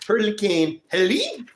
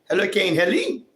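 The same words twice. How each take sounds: First: The name is said with a French accent. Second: The name is said with a plain English accent.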